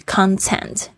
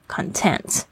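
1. 重音在第一个音节。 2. 重音在第二个音节。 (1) "它的重音就会跑到前面去了" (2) "重音在tent 的时候是形容词，是指满足的满意的"

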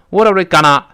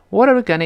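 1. 'gonna' 这个词要用力读。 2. 'gonna' 这个词要很轻地读。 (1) "不能够用力，不能读成" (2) "必须又快又轻"

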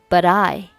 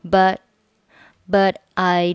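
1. t 音会顺畅地连到后面的 'I' 上。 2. 'but' 末尾的 t 不发音。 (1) "连起来读成but I" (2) "but 末尾不发音就是but I"

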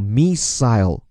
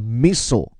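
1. 这个词是用英式发音读的。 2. 这个词是用美式发音读的。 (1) "而在英音当中呢叫missile" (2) "在美音当中叫missile"

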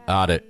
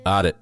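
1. 这两个词合并成一个缩减的词。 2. 这两个词合并成一个缩减的词。

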